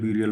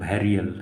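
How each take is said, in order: First: The first syllable sounds like 'byoo'. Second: The first syllable sounds like 'beh'. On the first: The speaker calls it wrong. "मैं इसको ब्यूरियल ब्यूरियल बोलता था" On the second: The speaker calls it right. "इसको ऐसे pronounce किया जाता है"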